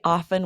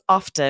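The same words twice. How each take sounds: First: The T in the word is silent. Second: The T in the word is pronounced. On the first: "I say often with a silent T" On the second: "She pronounces the T like you"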